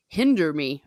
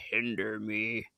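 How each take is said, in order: First: Said in the usual way. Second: Much lower, softer menacing growl; deep menacing voice. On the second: Shown as a demonstration. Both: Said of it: "Actually, I should say".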